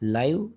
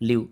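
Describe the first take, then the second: First: The vowel sounds like 'eye'. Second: The vowel sounds like 'ih'. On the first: A broadcast happening in real time. "ஒண்ணு லைவ் ப்ரோகிராம்னா நேரலை" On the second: To reside somewhere. "லிவ் அப்படின்னா வசித்தல்"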